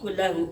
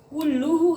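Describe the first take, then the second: First: The vowel after the double l is a. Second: The vowel after the double l is u. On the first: The speaker calls it wrong. "nggak boleh" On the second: The speaker calls it right. "Harus dibaca ro, rafa"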